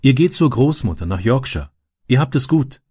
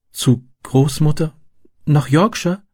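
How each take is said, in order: First: Mild, higher-pitched comforting; understated encouragement; reassuring. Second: Put-on high, wondering child's question; little girl's pleased surprise; delighted. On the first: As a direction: cheer up a younger child. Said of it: "beruhigte er sie". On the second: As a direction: repeat it slowly in happy disbelief. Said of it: "wiederholte sie erfreut". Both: A narrator's reading.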